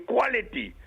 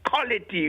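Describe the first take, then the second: First: It begins with a KW sound. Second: It begins with a plain K sound. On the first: The speaker calls it right. "we say quality" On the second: The speaker calls it wrong. "we don't say quality"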